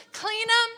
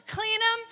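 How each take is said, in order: Both takes have the same delivery.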